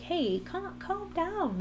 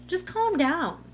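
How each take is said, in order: First: Higher-pitched, gentle imitation of a husband soothing; tender, lightly voiced "calm down"; loving reassurance. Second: Higher, drawn-out mock telling-off; patronizing mock "calm down"; dismissive calm-down. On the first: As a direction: imitate someone lovingly talking a partner down. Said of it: "like, lovingly". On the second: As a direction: say it like the worst possible advice. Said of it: "that is the worst thing".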